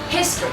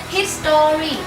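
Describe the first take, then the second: First: It is said with a standard English pronunciation. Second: It is said with a Vietnamese-influenced pronunciation. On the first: The speaker calls it right. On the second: The speaker calls it wrong.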